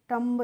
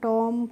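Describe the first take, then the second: First: The final b is pronounced. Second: The final b is silent. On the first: The speaker calls it wrong. "हो सकता है कि आपको rule नहीं पता है" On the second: The speaker calls it right. "आपको rule पता होगा तभी तो इनको पढ़ेंगे"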